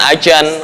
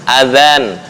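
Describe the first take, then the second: First: The middle consonant is a 'j/z' sound. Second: The middle consonant is a soft 'dh' sound. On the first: The speaker calls it wrong. "bukan ajan, lah ajan bahasa Betawi" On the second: The speaker calls it right. "ujung lidah dicepit gigi atas"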